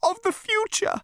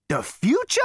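First: Very high, pitiful elevator voice; miserable. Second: Loud, high rising echo; incredulous exclamation. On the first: Elevator confessing its fear, miserable and high. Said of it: "said the elevator miserably". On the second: Zaphod echoing the elevator, incredulous exclamation. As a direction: exclaim it in disbelief. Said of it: "exclaimed Zaphod". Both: A narrator's reading.

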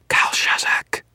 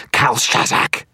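First: Forceful, hissing whisper. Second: High, loud strained screech. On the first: Sorcerer summoning a demon by name, whispering. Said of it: "Victor whispered". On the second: Sorcerer calling the demon last time, screeching. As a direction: screech the name as a final summons. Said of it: "his voice rising to a screech". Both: A narrator's reading.

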